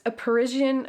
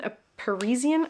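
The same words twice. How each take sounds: First: Tentative "Parisian", middle sound like the s in vision; trying a pronunciation. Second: "Parisian" with a buzzing z in the middle; unsure second go at "Parisian", z instead of zh; trying a pronunciation. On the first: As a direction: say "Parisian" as puh-RIZH-ee-un. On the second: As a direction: say "Parisian" as puh-REE-zee-un. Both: Shown as a demonstration. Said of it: "I don't know how to say that".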